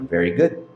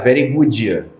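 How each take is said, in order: First: It ends cleanly without an extra vowel. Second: It ends with an extra vowel, Carioca style.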